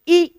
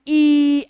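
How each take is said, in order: First: The vowel is said short and plain. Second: The vowel is drawn out and lengthened. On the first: "छोटी ई को हम बोलेंगे ई" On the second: "ई ऐसे थोड़ा सा खींचेंगे"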